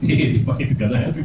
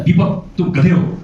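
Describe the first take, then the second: First: Laughing, affectionate ribbing; playful teasing. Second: Slow, loud, higher jab at Deepak; harsh insult. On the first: Teacher shows the same insult said kindly, laughing. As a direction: tease him as a friend, chuckling. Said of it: "लेकिन अगर कैसे बोलूं". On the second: Teacher demos a rude insult to Deepak, slow and loud. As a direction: call him a donkey with contempt. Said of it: "मतलब, अगर बोलेंगे ना". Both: Shown as a demonstration.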